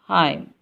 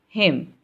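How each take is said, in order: First: The vowel is long, like the letter I. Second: The vowel is a short i sound. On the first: The speaker calls it wrong. "we don't say it's Haim" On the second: The speaker calls it right. "It's him"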